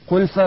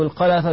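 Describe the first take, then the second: First: The first vowel is u; the second consonant is unvoweled. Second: Both of the first two syllables have the vowel a. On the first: "بالضم والسكون" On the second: "بفتحتين"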